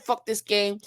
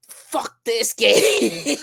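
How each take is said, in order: First: Said in the usual way. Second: Drawn-out groan. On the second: Retold or imitated. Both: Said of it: "And then I really said".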